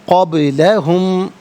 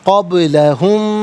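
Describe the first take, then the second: No difference in how they are said.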